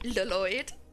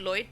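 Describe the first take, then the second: First: The name starts with a Welsh double-L sound. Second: The name starts with a plain L sound.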